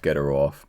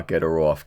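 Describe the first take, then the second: First: German accent. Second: Said in the usual way. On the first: Shown as a demonstration. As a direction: get her off in a German accent. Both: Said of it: "but in a German accent".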